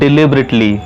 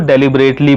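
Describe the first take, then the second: First: The first syllable is said like 'dih'. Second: The first syllable is said like 'deh'. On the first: The speaker calls it right. "इसकी सही pronunciation होती है" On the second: The speaker calls it wrong. "जो कि गलत pronunciation है"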